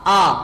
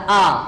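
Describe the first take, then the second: The two takes are said the same way.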